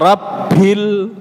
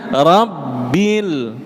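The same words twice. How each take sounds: First: The b is released with a lot of breath. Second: The b is released with no breath. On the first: The speaker calls it wrong. "banyak juga huruf ba" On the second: The speaker calls it right. "Harusnya rabbil"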